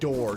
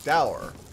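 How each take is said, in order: First: It is said in one syllable, like door. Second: It is said in two syllables, rhyming with sour. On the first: The speaker calls it wrong. "You are mispronouncing dower" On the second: The speaker calls it right. "Dower rhymes with sour"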